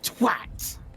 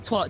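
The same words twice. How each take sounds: First: The word is said harshly and angrily. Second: The word is said softly, without harshness. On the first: The insult is meant to hit hard. The speaker calls it right. "the harsh, angry twat" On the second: The insult sounds like a joke. The speaker calls it wrong. "Just sounds like you know sounds like a joke"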